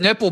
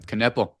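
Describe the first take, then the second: First: The word begins with an N sound. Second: The word begins with a hard K sound. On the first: "Maybe it's Nipple, but he wanted to go hard K" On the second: "He's a hard K"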